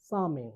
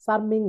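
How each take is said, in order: First: চার্মিং with no r; silent R. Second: চার্মিং with the r sounded; R pronounced. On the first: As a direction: say চার্মিং as "chaa-ming". (র বাদ দিয়ে চার্মিং) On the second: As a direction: say চার্মিং with r before the m. (র উচ্চারণ করে চার্মিং) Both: Shown as a demonstration. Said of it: "আর এর উচ্চারণ হবে না".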